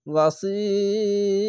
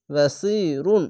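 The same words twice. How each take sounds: First: ওয়াসির held very long on si, closing on r; three-count stretch. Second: ওয়াসি রুন with a short hold on si and a sounded run; full ending. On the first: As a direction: stretch the i of ওয়াসির, stop on a vowelless r. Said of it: "তো এইভাবে হবে". (ওয়াসির তিন আলিফ টেনে, শেষে সাকিন) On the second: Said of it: "বাসি রুন না বলে". (ওয়াসি রুন, শেষে রুন উচ্চারণ করে) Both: Shown as a demonstration.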